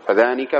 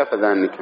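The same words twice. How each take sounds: First: Said in the usual way. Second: فذانك with the ن doubled, fadhannik; doubled nun. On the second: Shown as a demonstration. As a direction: hold the n long in فذانك. (فذانك بتشديد النون) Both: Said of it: "تشديدها".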